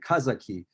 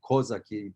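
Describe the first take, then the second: First: The first vowel sounds like a. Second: The first vowel sounds like o. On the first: This is how it would be said in Russian. The speaker calls it wrong. "That's the way you would pronounce it in Russian" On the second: This is how it is said in Ukrainian. The speaker calls it right. "but in Ukrainian, it would be Kozake Duch"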